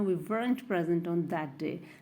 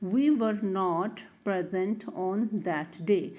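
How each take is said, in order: First: 'Not' is contracted onto the verb as 'weren't'. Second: 'Not' is said as a full separate word.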